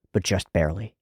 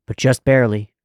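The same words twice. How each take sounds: First: Said in the usual way. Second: But just barely, louder with a falling end on barely; But just barely with barely stressed and falling. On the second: Shown as a demonstration. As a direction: lean hard on barely and let it drop.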